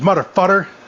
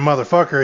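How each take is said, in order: First: The word has a T sound before the ending. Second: The word has a K sound before the ending. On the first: "He can't say K or C words right" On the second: "instead of saying motherfucker"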